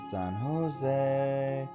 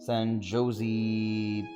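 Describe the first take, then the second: First: The last syllable rhymes with way. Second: It is said with a Texan pronunciation. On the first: "because Jose rhymes with way" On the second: "I am Texan, so I can also say San Jose because we Texans do that"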